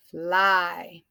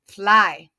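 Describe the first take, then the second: First: FLY stretched through the vowel; drawn out. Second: FLY in one quick, loud beat; said short. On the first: Teacher repeating the word for class, FLY drawn out. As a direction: sound out FLY slowly. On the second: Teacher showing a short word, FLY quick and loud. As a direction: punch out FLY as one syllable. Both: Shown as a demonstration. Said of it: "and it's a short".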